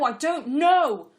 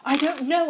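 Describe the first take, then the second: First: Slow, very loud, higher drawn-out cry; desperate shout. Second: Loud, higher, exasperated outburst. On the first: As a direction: shout it out, at the end of his rope. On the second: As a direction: snap back, fed up with questions. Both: Acted. Pestered by the woman's questions.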